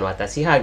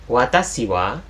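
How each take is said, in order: First: The particle is pronounced as ha. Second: The particle is pronounced as wa. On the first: The speaker calls it wrong. "bukan watashi ha" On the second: The speaker calls it right. "maka dia dibaca wa"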